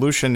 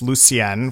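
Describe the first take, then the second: First: The name is said with an American pronunciation. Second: The name is said with a French pronunciation. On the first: "the American pronunciation of the same name" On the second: "My name is French"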